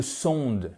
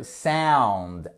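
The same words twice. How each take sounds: First: "sound" as French "sonde", nasal vowel; wrong French-style SOUND. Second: "sound" drawn out with an ow glide; correct English SOUND. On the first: Teacher showing the mistake, "sound" as French "sonde". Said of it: "Ce n'est pas le sound". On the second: Teacher correcting learners, "sound" with a slow ow diphthong. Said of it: "c'est le sound". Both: Shown as a demonstration.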